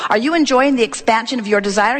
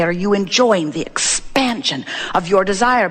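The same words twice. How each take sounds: First: Brisker, firmer delivery of the question; more powerful. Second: Measured question. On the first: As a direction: put power behind ENJOYING. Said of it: "in a more powerful way". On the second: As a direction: draw out the question, pausing inside EXPANSION. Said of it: "That's what we mean when we say". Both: Shown as a demonstration.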